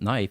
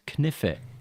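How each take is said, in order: First: The k is silent, said the usual way. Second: Every letter is sounded, including the k. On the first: "knife wasn't knife" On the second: "I was sounding out the entire word"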